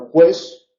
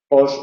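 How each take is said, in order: First: The vowel is a ue glide. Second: The vowel is a plain o sound.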